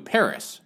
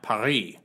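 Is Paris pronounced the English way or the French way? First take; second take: English; French. First: Pronounced the English way, ending in an s sound. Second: Pronounced the French way, with no final s. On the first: "I'll be using English language equivalents" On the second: "not Paris"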